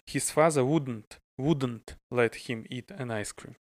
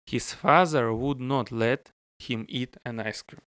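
First: Would not is contracted into one word. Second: Would not is said as two full words.

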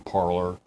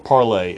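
First: It is said with a plain English pronunciation. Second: It is said with a French pronunciation.

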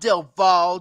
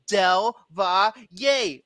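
First: The surname ends after one syllable, 'Val'. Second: The surname ends with a second syllable after 'Val'. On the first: The speaker calls it wrong. "Not Del Val" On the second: The speaker calls it right. "That's how my name is pronounced"

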